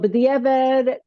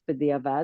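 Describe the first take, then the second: First: It is said in an American yeshiva pronunciation. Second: It is said in a modern Israeli pronunciation. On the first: "the way people in America have gotten used to saying it" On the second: "And in Israel, in more modern, it's b'diavad"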